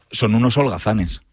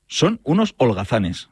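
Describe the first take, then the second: First: Said in the usual way. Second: "Son unos holgazanes" slowly, word by word; slow, separated words on "Son unos holgazanes", each one given weight; emphatic repeat. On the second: Real, not acted. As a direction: space out "Son... unos... holgazanes" as a deliberate verdict.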